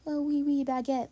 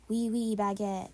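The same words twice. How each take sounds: First: A lightly put-on mock French accent, a little higher. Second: Put-on American accent. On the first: Host mocking Paris locals, lightly mock French accent. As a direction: tease the French with a hint of a French accent. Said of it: "they can't go, like you do". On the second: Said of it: "only talk in an American accent".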